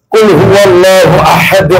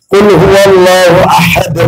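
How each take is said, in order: Both takes have the same delivery.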